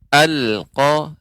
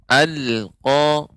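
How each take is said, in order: The two takes are said the same way.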